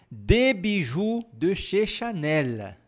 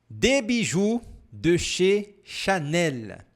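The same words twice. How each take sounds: First: The phrase is spoken at a natural pace. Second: The phrase is spoken slowly and carefully.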